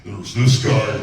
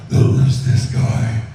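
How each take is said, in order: First: Loud, heavy brute voice set against the second; a loud brute calling out; first monster voice. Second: Very slow, loud, whispery growl; slow, loud, rasping brute; second monster voice. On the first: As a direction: bellow it out like a big brute. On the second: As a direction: drag it out slowly like a hulking creature. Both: Shown as a demonstration. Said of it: "Hulk and Grundy are a good example of that".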